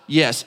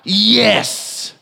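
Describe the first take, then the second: First: It is said plainly, without extra force. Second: It is said strongly, with emphatic force.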